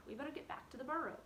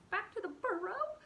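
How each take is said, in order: First: Said in the usual way. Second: High, loud whimper rising on "burrow". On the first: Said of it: "Hazel said". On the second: Acted. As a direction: echo "burrow" as a frightened question. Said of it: "whimpered Fiver".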